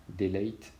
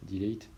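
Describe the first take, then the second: First: Delete à l'anglaise, i long; English accent. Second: Dilete, more English vowel; English accent. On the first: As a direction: dire delete avec un accent anglais appuyé. (accent anglais sur delete) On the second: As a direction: say delete the English way, mock proud. (delete prononcé à l'anglaise, dilète) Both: Shown as a demonstration. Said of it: "avec mon superbe accent".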